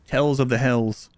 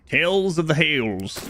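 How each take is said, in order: First: The last word rhymes with 'tells'. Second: The last word rhymes with 'tales'.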